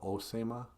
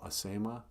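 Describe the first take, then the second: First: The word begins with an o vowel. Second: The word begins with an a vowel. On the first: This is the form used in some other places. "Some places call it Osema" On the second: This is the local form used down here. "down here, we call tobacco Asema"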